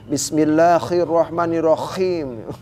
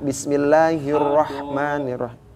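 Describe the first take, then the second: First: The h is said as a scratchy kh sound. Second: The h is said as a smooth breathy h. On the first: The speaker calls it wrong. "Jangan karena pengen leko jadi" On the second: The speaker calls it right.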